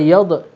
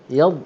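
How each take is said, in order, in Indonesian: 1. Bunyi d terakhir berakhir dengan pantulan bergema. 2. Bunyi d terakhir berhenti begitu saja tanpa pantulan. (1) "jangan buat qalqalah, jangan yad" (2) "yad je"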